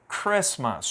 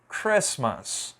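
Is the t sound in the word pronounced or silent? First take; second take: silent; silent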